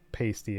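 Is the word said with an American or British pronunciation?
American. It is pronounced the American way. The speaker calls it wrong. "I'm pronouncing it in an American accent"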